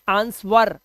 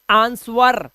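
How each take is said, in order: The two takes are said the same way.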